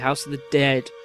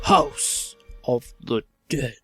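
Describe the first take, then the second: First: It is said in his normal voice. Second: It is said in a put-on voice.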